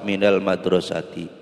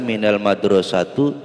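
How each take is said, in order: First: The last word ends with an i vowel. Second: The last word ends with an u vowel. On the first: The speaker calls it right. "Harus dibaca kasroh" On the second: The speaker calls it wrong. "Tidak boleh dibaca minal madrosatu"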